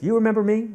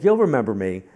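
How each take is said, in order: First: High, loud, expectant question; eager question. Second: Loud, confident insistence; insistent assertion. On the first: Woman greeting the reader at a signing, eager question. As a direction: pitch it right up, asking for recognition. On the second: Woman to the reader who forgot her, insistent. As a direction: push it out loudly as a sure statement. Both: Retold or imitated.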